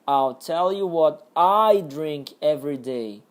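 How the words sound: The stress falls on the word I. "a entonação aqui era no I, no eu"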